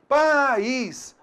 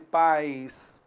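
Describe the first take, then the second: First: The word is two syllables, with a full i. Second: The word is one syllable, gliding into a weak i. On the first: "a gente vai observar então duas vogais" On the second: "Olha só como o som decresce"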